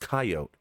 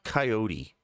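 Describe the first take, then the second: First: The final E is silent; two syllables. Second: The final E is voiced; three syllables. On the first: The speaker calls it right. "It's pronounced coyote" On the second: The speaker calls it wrong. "It's not coyote"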